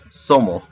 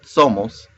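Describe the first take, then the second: First: The final s is dropped. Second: The final s is pronounced.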